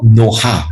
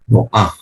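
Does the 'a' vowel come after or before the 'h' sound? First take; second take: after; before. First: The a vowel comes after the h. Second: The a vowel comes before the final h. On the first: The speaker calls it wrong. "It's not Noha. You don't pronounce it N O H A Noha" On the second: The speaker calls it right. "It's actually N O A H. The A comes before the final"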